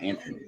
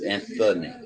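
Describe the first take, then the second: First: The middle consonant is a plain 't' sound. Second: The middle consonant is a 'th' sound. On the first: The speaker calls it wrong. "not Anthony" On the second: The speaker calls it right. "You do know there's an H in there, right? It's Anthony"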